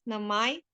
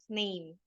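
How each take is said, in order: First: It ends with a sounded final vowel. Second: It ends with a silent final vowel. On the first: This is the older form of the word. "In Middle English, the word name pronounced as namai" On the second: This is the modern form of the word. "how we say it today with a long A and a, a voiceless E"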